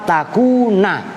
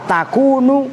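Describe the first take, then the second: First: The word ends with an a vowel. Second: The word ends with a u vowel. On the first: The particle is read as an masdariyah. "dibaca na, nasab" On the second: The particle is read as a lightened anna. "asalnya annahu la takunu"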